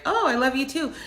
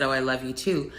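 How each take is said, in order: First: High, delighted surprise; husband caught off guard, lightly imitated with surprised joy. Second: Said in the usual way. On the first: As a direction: catch him off guard, thrilled. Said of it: "he was so surprised". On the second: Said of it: "I responded and said".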